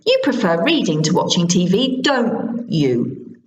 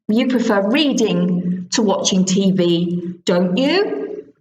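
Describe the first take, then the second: First: The voice falls on the final tag. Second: The voice rises on the final tag. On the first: The speaker thinks they already know the answer. "Or down if you think you know you're right" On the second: The speaker genuinely does not know the answer. "If it's a real question, your voice goes up"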